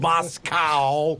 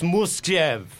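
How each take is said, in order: First: The word ends in an 'oh' vowel sound. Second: The word ends in a 'v' consonant sound. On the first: The speaker calls it wrong. "you all say it the wrong way. It isn't Moscow" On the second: The speaker calls it right. "it's Muskev"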